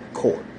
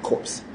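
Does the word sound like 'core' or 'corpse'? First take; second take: core; corpse. First: The word ends in r with no p or s. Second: The word ends with audible p and s sounds. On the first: The speaker calls it right. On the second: The speaker calls it wrong. "Don't say it wrong. It's not corpse"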